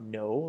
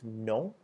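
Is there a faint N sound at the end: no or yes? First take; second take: no; yes. First: It ends with no N sound. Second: It ends with a faint N sound. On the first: The speaker calls it wrong. "it's not no like we have in English" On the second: The speaker calls it right. "add the very faint N sound at the end"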